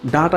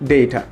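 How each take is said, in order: First: The first vowel is an open 'ah' sound. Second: The first vowel is an 'ay' sound. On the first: The speaker calls it wrong. "যারা এখনও ডাটা use করেন" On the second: The speaker calls it right. "যেখানে বলা উচিত ডেটা"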